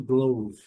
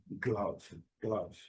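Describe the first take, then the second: First: "glove" with a long O, like 'glowv'; the wrong take, "glove" with an 'oh' vowel; mistaken long O. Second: "glove" with a short 'uh' vowel, like 'gluv'; low, careful "glove" with short open vowel. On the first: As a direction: mispronounce "glove" to rhyme with "stove". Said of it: "Algumas pessoas ainda pronunciam glove". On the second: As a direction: say "glove" to rhyme with "love". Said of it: "o som do O curto". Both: Shown as a demonstration.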